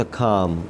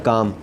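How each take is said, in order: First: खाम with an aspirated kh at the start; breathy K. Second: Said in the usual way. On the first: Shown as a demonstration. Teacher showing how calm starts, aspirated kh. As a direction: turn काम into खाम with a puff of air. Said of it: "थोड़ा सा खाम कर दें". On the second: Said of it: "काम को थोड़ा सा खाम कर दें".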